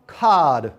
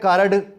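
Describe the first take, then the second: First: The r is not sounded after the vowel. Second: An extra vowel is added between r and d. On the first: The speaker calls it right. "उसकी pronunciation भी ठीक है और उसका accent भी ठीक है" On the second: The speaker calls it wrong. "ना प्रोनाउंसिएशन ठीक है ना ही"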